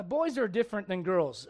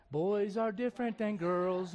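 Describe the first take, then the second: First: Said in the usual way. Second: Put-on slow, softer children's-host voice; Mister Rogers. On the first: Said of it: "Mister Rogers". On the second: Preacher mimicking a kids' TV host, slow and soft. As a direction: say it gently and slowly, word by word. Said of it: "Mister Rogers, whatever, you know".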